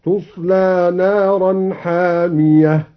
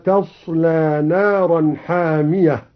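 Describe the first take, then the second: First: تصلى as "tuslā" with a u on the ta, slow; تصلى passive, recited slowly; damma on ta in تصلى. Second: Said in the usual way. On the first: Shown as a demonstration. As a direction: open تصلى with "tu". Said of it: "قرأ الدوري بضم التاء ... هكذا". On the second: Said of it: "بضم التاء على البناء للمجهول".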